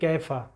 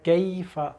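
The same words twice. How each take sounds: First: The 'y' sound in the middle is dropped. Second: The 'y' sound in the middle is clearly pronounced. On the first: The speaker calls it wrong. "यहाँ से या का हर्फ गायब हो जाता है" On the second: The speaker calls it right. "बार बार इसको हमने अदा करना है"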